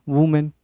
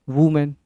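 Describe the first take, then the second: Both takes have the same delivery.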